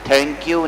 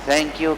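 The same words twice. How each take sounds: First: The 'th' is an aspirated stop, like Hindi 'tha'. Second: The 'th' is a soft fricative, like Arabic 'tha'. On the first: The speaker calls it wrong. "और कहाँ हिंदी का था" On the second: The speaker calls it right. "सना वाला सा है"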